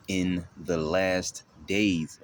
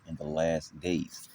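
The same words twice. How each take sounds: First: "In the last days" drawn out slowly, each word weighted; emphatic key phrase. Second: Said in the usual way. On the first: Real, not acted. Preacher quoting the verse's key thing, emphatic stress on "In the last days". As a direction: stretch and punch "last" and "days".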